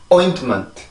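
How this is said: The first syllable is long and strong, the rest weak. The speaker calls it right. "그래서 이 단어는 그렇게 발음이 돼요"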